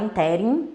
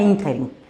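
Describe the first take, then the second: First: The stress is on the second syllable. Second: The stress is on the first syllable. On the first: The speaker calls it wrong. "Muita gente fala interim" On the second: The speaker calls it right. "o certo é ínterim"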